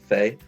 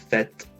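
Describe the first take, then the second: First: The final T is silent. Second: The final T is pronounced. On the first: The speaker calls it right. "it's not pronouncing that T" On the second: The speaker calls it wrong. "it's not like a fait"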